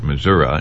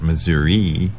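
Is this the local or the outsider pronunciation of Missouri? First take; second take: local; outsider. First: The name is said the way residents say it. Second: The name is said the way many outsiders say it. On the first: The speaker has lived in the state. The speaker calls it right. "Once you've lived in Missouri, you pronounce it Missouri" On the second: The speaker has not lived in the state. The speaker calls it wrong. "and not Missouri, as a lot of people do"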